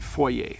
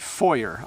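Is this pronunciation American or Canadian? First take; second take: Canadian; American. First: The word is said in a Canadian accent. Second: The word is said in an American accent. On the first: "in Canada, we say foyer" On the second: "in America, they say foyer"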